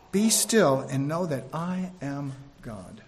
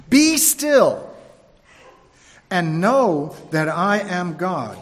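First: Softer, lower and slow; gentle repeat. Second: Voice of God. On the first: Shown as a demonstration. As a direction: let it settle as a quiet reminder. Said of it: "repeated softly". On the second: Acted. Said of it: "Psalm forty-six, verse ten".

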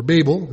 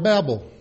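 First: "Babel" said as "BAY-bul"; long-a pronunciation. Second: "Babel" said like "babble"; short-a pronunciation. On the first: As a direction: say "Babel" with a long a, rhyming with "table". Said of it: "like to pronounce it". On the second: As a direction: say "Babel" with a short a in the first syllable. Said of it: "as some pr-, like to pronounce it". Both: Shown as a demonstration.

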